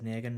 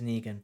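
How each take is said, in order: First: The first vowel sounds like an 'a'. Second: The first vowel sounds like an 'e'. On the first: The speaker calls it wrong. "it just sounded right when I said Negan" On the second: The speaker calls it right. "but it is Negan"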